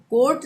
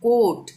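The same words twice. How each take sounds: First: "कोट" for court with r sounded, "kort"; r pronounced. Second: "कोट" for court, loud, no r; silent r. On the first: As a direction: put a clear r before the t in "कोट". ("कोट" को "कोर्ट" बोलें) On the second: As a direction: hold the vowel of "कोट" straight into t. ("कोट", र के बिना) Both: Shown as a demonstration. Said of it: "तो कोट नहीं पढ़ेंगे".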